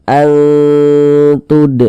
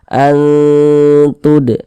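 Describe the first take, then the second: The two takes are said the same way.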